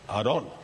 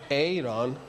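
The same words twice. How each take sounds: First: The name is pronounced the heavier Spanish way. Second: The name is pronounced the lighter English way. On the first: The speaker calls it right. "Aaron sounds more masculine, right? Heavy" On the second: The speaker calls it wrong.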